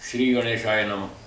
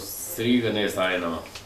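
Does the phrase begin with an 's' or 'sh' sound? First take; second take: sh; s. First: It starts with 'sh' and keeps the retroflex n. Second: It starts with 's' and uses a plain n. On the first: The speaker calls it right. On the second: The speaker calls it wrong.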